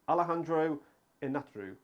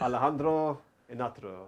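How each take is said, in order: First: The name is said without a Spanish accent. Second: The name is said with a Spanish accent.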